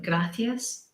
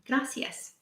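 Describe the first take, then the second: First: It is said with a Spain Spanish accent. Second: It is said without a Spain Spanish accent.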